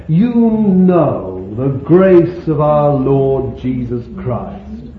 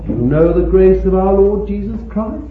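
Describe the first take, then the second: First: Slow, loud verse reading; declaimed scripture. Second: Loud question, climbing to CHRIST; challenging question. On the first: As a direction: declare the verse slowly, leaning on YOU. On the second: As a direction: turn it on the listeners, rising steadily to "Christ". Same verse turned into a question. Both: Acted.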